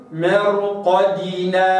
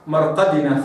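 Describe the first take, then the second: First: مرقدنا slow with a full kasra on dal; correct recitation. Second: مرقدنا with a bounced, sukun-like dal; wrong recitation. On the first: Teacher models the right مرقدنا. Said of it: "هكذا". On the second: Teacher shows the mistaken مرقدنا. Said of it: "خطأ، هكذا". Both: Shown as a demonstration.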